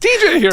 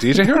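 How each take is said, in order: First: It sounds sincere and enthusiastic. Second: It sounds doubtful and incredulous.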